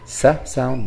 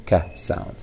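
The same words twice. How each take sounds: First: "sa" with a hissed s; soft C sound. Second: "ka" with a hard k; hard C sound. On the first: Teacher contrasting two sounds of C, soft "sa". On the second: Teacher contrasting two sounds of C, hard "ka". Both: Shown as a demonstration. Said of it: "the letter C stands for different sounds".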